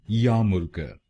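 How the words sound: It is said in a British accent.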